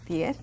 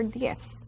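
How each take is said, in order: First: "Diez" with a final TH; Spain pronunciation. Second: "diez" with a final S; S-ending pronunciation. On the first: Teacher comparing Spain's way for students, "Diez" ending in TH. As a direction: say "Diez" as dyeth. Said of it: "like they say in Spain". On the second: Teacher comparing the non-Spain way, "diez" ending in S. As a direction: say "diez" as dyess, no TH. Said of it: "Diez or diez". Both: Shown as a demonstration.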